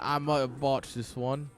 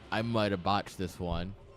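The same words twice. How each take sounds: First: It is said in a put-on British accent. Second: It is said in the speaker's ordinary accent.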